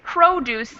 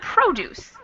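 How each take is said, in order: First: The stress is on the first syllable. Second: The same.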